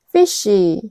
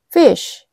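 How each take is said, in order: First: It is said with an added final vowel. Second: It is said as one syllable. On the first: The speaker calls it wrong. "fishy 이렇게 이음절로 발음하게 되는 경향이 있죠" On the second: The speaker calls it right. "fish 이렇게 이음절로 발음을 해야 되는데"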